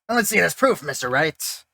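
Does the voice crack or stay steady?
steady. The voice stays steady without cracking in pitch.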